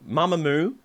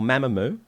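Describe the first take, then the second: First: Mamamoo opening on a long "mah"; first pronunciation. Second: Mamamoo opening on "ma" as in mat; alternative pronunciation. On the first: Host introducing the video, Mamamoo as MAH-muh-moo. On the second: Host hedging while introducing band, Mamamoo as MAM-uh-moo. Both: Shown as a demonstration. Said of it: "the pronunciation is Mamamoo or Mamamoo".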